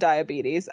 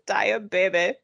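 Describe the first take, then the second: First: The word has its usual English pronunciation. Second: The middle sounds like Spanish 'bebé'. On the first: The speaker calls it right. "instead of diabetes" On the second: The speaker calls it wrong. "They said diabetes, like baby in Spanish"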